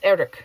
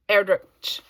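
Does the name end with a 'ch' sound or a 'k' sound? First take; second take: k; ch. First: The name ends with a 'k' sound. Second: The name ends with a 'ch' sound. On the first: The speaker calls it right. "I think it's k" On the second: The speaker calls it wrong. "I've been saying ch"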